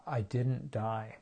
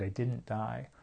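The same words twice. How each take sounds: First: Slow, stunned realization; slow astonished inner voice. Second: Softer, ending in a rising lift; quiet wondering echo. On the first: Inner voice after surviving panic, slow and stunned. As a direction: let it sink in slowly, amazed. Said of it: "this voice inside my head went". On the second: Echoing her own thought in quiet wonder. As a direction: repeat it as a small marvel. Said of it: "That's what went through my mind". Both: Retold or imitated.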